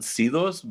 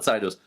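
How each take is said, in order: First: The first syllable sounds like 'see'. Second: The first syllable sounds like 'sigh'. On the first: This is how it sounds natural to someone from the border. "I call it Cedos because it's it's you know I grew up on the border" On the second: This is how the company says the name. "they call it Cydos"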